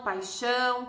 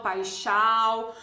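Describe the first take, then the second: First: "paixão" com final ÃO nasalizado; som nasal do til. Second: "paixão" dito "paixau", final oral e arrastado; pronúncia errada sem til. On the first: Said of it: "aquele A tem som de ã". (pronúncia nasal, com til) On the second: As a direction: troque o ÃO de "paixão" por AU, devagar. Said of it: "eu não vou dizer". (final oral, sem nasalizar) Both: Shown as a demonstration.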